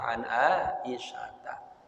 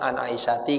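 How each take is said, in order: First: The name ends with an a vowel. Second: The name ends with an i vowel. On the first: The speaker calls it right. "Mana dibaca an Aisyata" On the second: The speaker calls it wrong. "Harusnya an Aisyati kan"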